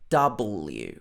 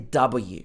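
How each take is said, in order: First: The letter is said with an L sound. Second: The letter is said without an L sound. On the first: The speaker calls it right. "to have the L in it. Double" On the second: The speaker calls it wrong. "Don't say W"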